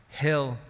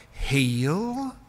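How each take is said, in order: First: Said in the usual way. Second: "Heal" stretched into two syllables, louder. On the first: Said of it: "used to pronounce his name as if". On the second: Retold or imitated. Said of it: "like it had two syllables in it".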